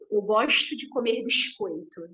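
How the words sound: It is said in a carioca accent.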